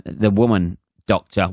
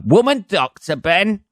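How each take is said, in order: First: Said in the usual way. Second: High-pitched, scandalised echo; mock incredulity. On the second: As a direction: repeat it as if outraged, voice jumping right up. Mock shock at his own phrase.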